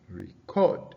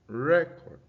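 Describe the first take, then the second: First: The stress is on the second syllable. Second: The stress is on the first syllable. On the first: It means to save sound or video. "Record is a verb" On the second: It names a document or a disk. "for it as a noun, the stress is on the first syllable"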